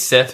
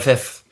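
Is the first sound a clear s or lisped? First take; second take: clear; lisped. First: The first sound is a clear s. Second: The first sound is lisped like th.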